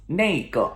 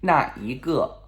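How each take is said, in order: First: "那个" merged into nei-ge; shortened colloquial form. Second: "那一个" as three syllables, na-yi-ge; full long form. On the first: Teacher showing what it becomes, colloquial form. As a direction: say "那个" as nay-guh. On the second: Teacher showing the form before shortening, full form. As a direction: separate each syllable of "那一个". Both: Shown as a demonstration.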